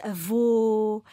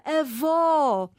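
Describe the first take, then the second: First: "avô" with a half-closed, stressed final ô. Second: "avó" with a long, open, stressed final ó. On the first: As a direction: round the last vowel of "avô", as in grandfather. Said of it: "indica vogal média". ("avô" com o ô final fechado e tónico) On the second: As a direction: open up the last vowel of "avó", as in grandmother. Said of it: "o agudo". ("avó" com o ó final aberto e tónico) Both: Shown as a demonstration.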